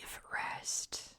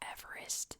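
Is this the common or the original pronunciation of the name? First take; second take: original; common. First: The name gets its original family pronunciation. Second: The name gets its common modern pronunciation. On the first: This is how the man's own name was said. The speaker calls it right. "George's name is actually pronounced Everest" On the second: This is how people read the written name. The speaker calls it wrong. "everyone sees the name and they go Everest"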